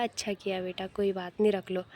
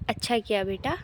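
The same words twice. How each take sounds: First: Mother's soft, smiling reassurance, softer; gently indulge the child with a smile; loving smile. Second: Said in the usual way. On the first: Retold or imitated. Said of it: "प्यार से मुस्कुरा के बोला". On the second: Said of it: "तो उसकी mummy ने कहा".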